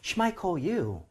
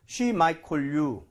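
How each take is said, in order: First: It is said expressively, sounding unsure. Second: It is said flatly, with no expression.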